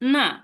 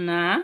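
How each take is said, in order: First: The pitch falls through the syllable. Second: The pitch rises through the syllable. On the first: It means that. "Fourth tone দেই এটা অর্থ that" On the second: It means take. "Second টোনের উচ্চারণটা কি হবে"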